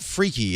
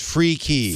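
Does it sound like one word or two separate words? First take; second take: one word; two words. First: It runs together as one word, stressed first. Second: It is said as two separate, distinct words. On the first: The speaker calls it wrong. "Now it's not freaky" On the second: The speaker calls it right. "It's free key"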